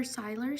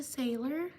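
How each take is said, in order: First: Siler said with a long "eye", SIGH-ler; alternative pronunciation. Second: Sailor said with a long "ay", SAY-ler; first pronunciation attempt. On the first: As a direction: say Siler as SIGH-ler, offered as another option. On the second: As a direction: say Sailor as SAY-ler, rising at the end. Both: Shown as a demonstration. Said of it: "sorry if I mispronounced your name".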